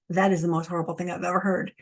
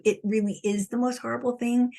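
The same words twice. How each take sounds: First: Quick, aghast gasp of disbelief; voicing a horrified viewer, hurried; shocked listener. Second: "thing" leaned on, pitched higher; sincere emphatic confirmation; earnest insistence. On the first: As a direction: rush it out as an appalled listener. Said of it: "some of you are like". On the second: Real, not acted. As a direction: insist it really is, landing on "thing". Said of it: "And I'm telling you".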